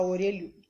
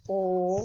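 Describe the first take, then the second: First: Said in the usual way. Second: "Orelhudo" in four isolated syllables; silabado. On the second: Shown as a demonstration. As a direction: count out "Orelhudo" with long pauses, o, re, lhu, do. ("Orelhudo" sílaba por sílaba, com pausas longas) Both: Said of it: "Quantas vezes você abre a boca".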